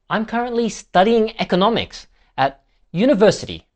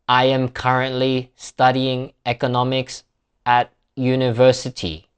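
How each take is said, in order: First: Studying, economics and university are louder and higher. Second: Every word gets the same flat, equal weight. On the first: The key information is marked for the listener. The speaker calls it right. "The stressed words are slightly longer, louder, and higher in pitch" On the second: Nothing in the sentence is marked as important. The speaker calls it wrong. "that really is flat. Every word gets equal weight there"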